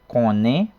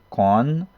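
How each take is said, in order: First: The word is said in full with its final vowel. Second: The word is shortened and the final vowel dropped.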